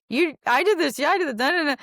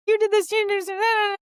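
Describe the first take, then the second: First: High, loud parroting of the blame; mirroring husband. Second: High, loud accusing shriek; mock freak-out. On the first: Retold or imitated. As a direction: echo her words back, playing the husband. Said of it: "he just knows to reflect me". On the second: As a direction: screech the blame like you're losing it. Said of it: "freaking out".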